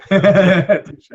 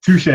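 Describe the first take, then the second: First: Touche louder and higher, drawn out; playful emphatic. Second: Said in the usual way. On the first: Real, not acted. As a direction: Touche said high and loud, playful. Conceding a point, laughing.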